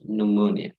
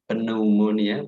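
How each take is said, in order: First: Pneumonia with a silent P, new-monia; right pronunciation. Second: Pneumonia with the P sounded, puh-neumonia; wrong pronunciation. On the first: Teacher models the right way: pneumonia, P silent. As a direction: say pneumonia starting on N. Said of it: "but pneumonia". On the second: Teacher shows the wrong way: pneumonia with a P. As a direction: say pneumonia starting with a P. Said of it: "So not pneumonia". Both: Shown as a demonstration.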